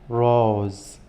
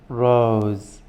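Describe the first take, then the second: Both takes have the same delivery.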